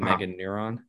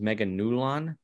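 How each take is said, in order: First: The name is said with an R sound. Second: The name is said with an L sound. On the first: The speaker calls it wrong. "rather than Meganuron" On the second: The speaker calls it right. "the pronunciation is Meganulon with an L"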